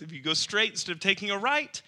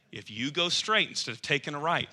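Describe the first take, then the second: First: Repeated higher, leaning on "right"; grandpa's warning, repeated. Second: Said in the usual way. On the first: Retold or imitated. Grandpa's warning repeated to Jeremiah, pressing on "right". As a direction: stress "right" with a rising tune. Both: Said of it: "that's his words".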